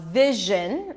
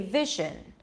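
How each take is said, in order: First: The middle consonant is a voiced 'zh' sound. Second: The middle consonant is a voiceless 'sh' sound. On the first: "sh and the j. As in uh" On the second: "a lot of Spanish speakers may say vision. Turn the j sound into sh"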